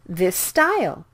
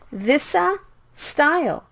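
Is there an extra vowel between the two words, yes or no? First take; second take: no; yes. First: The two S sounds merge into one longer S. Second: An extra vowel separates the two S sounds. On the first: The speaker calls it right. "you need to speak it with one S sound" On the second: The speaker calls it wrong. "Please don't say this-a style"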